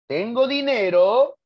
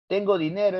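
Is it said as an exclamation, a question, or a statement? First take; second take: question; statement. First: The voice rises at the end like a question. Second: The voice falls evenly like a plain statement. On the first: The speaker asks whether they have money. "es interrogativa" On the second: The speaker states a fact. "es enunciativa"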